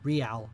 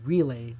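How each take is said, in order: First: The name sounds like the word 'real'. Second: The name sounds like the word 'relay'. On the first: The speaker calls it right. "not Real" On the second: The speaker calls it wrong. "I would always pronounce it as Relay"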